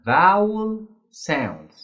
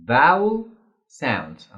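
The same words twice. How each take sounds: First: Vowel drawn out slowly, stress on vowel; drawn out term. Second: Vowel punched louder with a rise; louder repeat. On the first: Teacher introducing a new term to students, slow and drawn out. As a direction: stretch the word vowel for the class. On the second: Teacher repeating the term so students remember, louder. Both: Shown as a demonstration. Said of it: "أنا بتعامل مع صوت متحرك".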